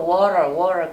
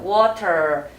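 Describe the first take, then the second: First: The t sound is softened into a flap. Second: The t sound is pronounced as a clear t. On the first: "약간 연음으로 water 그렇게 많이 하죠" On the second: "물론 T 발음이 T 발음에서 끝에 하고 끝나요"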